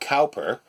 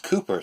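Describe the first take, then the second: First: The first syllable rhymes with 'now'. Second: The first syllable rhymes with 'too'. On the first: The speaker calls it wrong. "I'd already always been uh, pronouncing it uh" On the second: The speaker calls it right. "but apparently it's it's Cooper"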